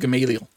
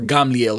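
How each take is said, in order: First: The name is pronounced the English way. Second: The name is pronounced the Hebrew way.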